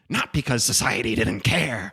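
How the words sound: It is read in a put-on character voice.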